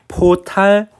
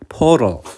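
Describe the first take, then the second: First: It is said with a Japanese-style accent. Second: It is said with an English accent. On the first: The speaker calls it wrong. "앞에 발음은 그냥 일본어적으로 읽는 거고" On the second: The speaker calls it right. "두 번째는 어, 영어 발음으로"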